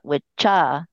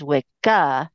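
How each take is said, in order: First: The middle consonant is a ch sound. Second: The middle consonant is a hard k sound. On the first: This is not how the word is said today. "not Witcha" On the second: This is how the word is said today. "they pronounce it as Wicca"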